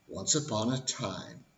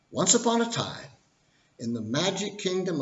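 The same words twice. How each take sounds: First: Said in the usual way. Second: High, lilting once-upon-a-time voice; storybook opening. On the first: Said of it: "all fairy tales start in the same way". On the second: Shown as a demonstration. Opening the financial crash fairy tale, storybook narration. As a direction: launch the tale like a bedtime storyteller. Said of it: "So here we go".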